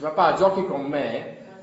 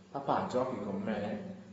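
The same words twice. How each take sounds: First: It is asked in an irritated, insistent tone. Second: It is asked in a soft, sweet tone.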